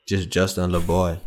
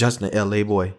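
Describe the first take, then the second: First: Put-on "Justin Lil Boy" with Lil said as one quick word, lil; New Orleans Lil. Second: Put-on "Justin L A boy" with L A said as two letters, el-ay; letters L A said one by one; spelled-out L A. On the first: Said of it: "only a New Orleans thing to say, Lil Boy". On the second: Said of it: "Who the hell would say Justin L A boy?". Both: Shown as a demonstration.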